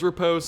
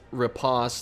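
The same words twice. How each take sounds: First: It is said in an American pronunciation. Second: It is said in a British pronunciation. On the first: "the American version is riposte" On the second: "the U K version is riposte"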